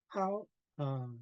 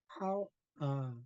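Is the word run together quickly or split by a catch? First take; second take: split; split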